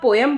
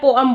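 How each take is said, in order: First: Two syllables, the second with an 'eh' vowel. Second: Two syllables, the second with an 'uh' vowel. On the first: "पोएम is a very correct pronunciation" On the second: "इससे भी ज्यादा apt होती है पोअम"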